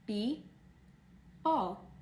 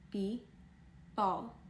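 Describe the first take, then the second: No difference in how they are said.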